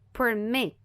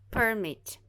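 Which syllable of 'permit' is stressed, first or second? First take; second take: second; first. First: The stress is on the second syllable. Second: The stress is on the first syllable. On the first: It is used as a verb. "Aqui é a segunda parte que vai ser a mais forte" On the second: It is used as a noun. "porque nesse caso aqui é um substantivo"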